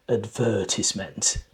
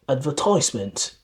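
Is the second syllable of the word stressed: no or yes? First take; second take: yes; no. First: The stress is on the second syllable. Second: The stress is not on the second syllable. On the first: This is the British pronunciation. "in British English, you're more likely to hear advertisement, advertisement. The stress here is in the second syllable" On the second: This is the American pronunciation. "in American English, you're more likely to hear"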